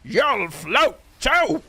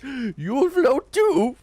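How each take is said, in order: First: Very high, slow, full-on clown shriek; monster Pennywise. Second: Pennywise. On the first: Retold or imitated. Streamer does the monster version, high and slow. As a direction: hurl it out as the monster. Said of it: "full on just currying it". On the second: Acted. Streamer shows off his Pennywise, high and slow. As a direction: gasp then a high, slow, creepy clown drawl. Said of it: "I can do a half-decent Pennywise".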